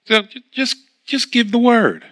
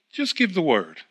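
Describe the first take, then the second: First: "just give the word" pushed higher and harder; urgent insistence. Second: "just give the word" said softer and settled, unhurried; soft calm request. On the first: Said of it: "he would have still been in pain". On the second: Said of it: "he seemed to calm down". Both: Retold or imitated.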